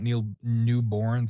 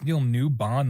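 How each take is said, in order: First: The surname ends with a 'born' sound. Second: The surname ends with a short 'bon' sound. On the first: The speaker calls it wrong. "I totally mispronounced Neil's name" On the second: The speaker calls it right. "It's Neil Newbon"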